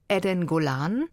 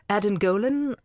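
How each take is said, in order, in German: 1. Der Name wird auf Hebräisch ausgesprochen. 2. Der Name wird auf Englisch ausgesprochen.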